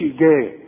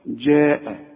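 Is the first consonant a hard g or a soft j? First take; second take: hard g; soft j. First: It begins with a hard g sound. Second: It begins with a soft j sound. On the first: The speaker calls it wrong. "ما تقولش جاء" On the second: The speaker calls it right. "لازم تعطشها"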